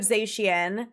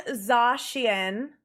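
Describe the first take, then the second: First: Zacian with first vowel "ay", ZAY-shee-en; rejected pronunciation. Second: Zacian with first vowel "ah", ZAH-shee-en; confirmed pronunciation. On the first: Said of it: "instead of Zacian". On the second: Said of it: "they confirmed Zacian instead of Zacian". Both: Shown as a demonstration.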